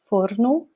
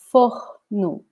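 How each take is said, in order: First: The R is tapped with the tongue tip. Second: The R is a soft breathy sound. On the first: This is how it is said in some other regions. "like the R is here in the edge of the tone" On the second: This is how it is said in the speaker's region. "almost like um, a, a breath ... like this"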